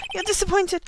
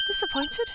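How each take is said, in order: First: Said in the usual way. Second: "Disappointed?" squeaked very high in disbelief; incredulous echo. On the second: Acted. Echoing the client's word, "Disappointed?" in a very high, stunned squeak.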